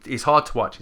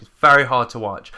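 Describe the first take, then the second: First: Said in the usual way. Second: Very pushed louder and held; stress on very. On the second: Real, not acted. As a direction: lean hard into the word very.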